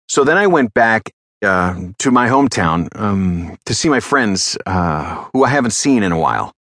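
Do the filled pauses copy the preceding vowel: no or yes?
no. The filled pauses are ordinary uh and um sounds.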